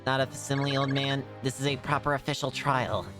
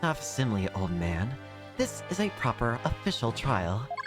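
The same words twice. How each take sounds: First: The voice sounds robotic and mechanical. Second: The voice sounds like a normal human voice. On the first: The speaker calls it wrong. "I'm trying to think if it would sound robotic through her" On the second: The speaker calls it right. "We'll just do normal voice"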